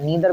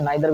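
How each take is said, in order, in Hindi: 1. पहला स्वर 'ee' जैसा सुनाई देता है। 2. पहला स्वर 'eye' जैसा सुनाई देता है। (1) "नीदर भी पढ़ते हैं" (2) "नाइदर भी पढ़ते हैं"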